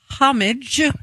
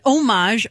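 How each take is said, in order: First: The word is said with an English pronunciation. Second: The word is said with a French pronunciation. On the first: "This is the way you say it. Weird. From England" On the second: "OG original. Because that's the way it's supposed to be said"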